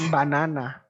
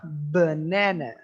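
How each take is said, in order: First: The unstressed vowels are said as full vowels. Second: The unstressed vowels are reduced to a schwa. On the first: The speaker calls it wrong. "Jadi bukan banana. Banana itu bukan. Bukan yang tepat" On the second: The speaker calls it right. "Yang lebih tepat adalah banana"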